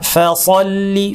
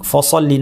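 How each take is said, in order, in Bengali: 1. প্রথম অক্ষরের স্বরধ্বনি পাতলা, হালকা। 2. প্রথম অক্ষরের স্বরধ্বনি ভারী, গাঢ়। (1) "ফসল্লি না" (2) "অনেকে ভুল করে বলেন ফসল্লি"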